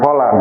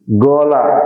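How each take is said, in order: First: It begins with a deep q sound. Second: It begins with a hard g sound. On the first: "bukan kola" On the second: "qaf dibacanya ge"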